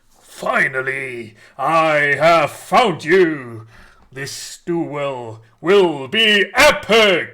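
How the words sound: It is said in a very grand, epic voice.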